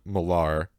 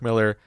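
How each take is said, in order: First: The name is said in a fancier-sounding way. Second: The name is said in the plain, common way. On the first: This is how one person says the name. The speaker calls it wrong. "which I was pronouncing Millar because I heard Kevin Smith say it that way" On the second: This is how the name is usually said. The speaker calls it right. "it was pronounced Mark Miller"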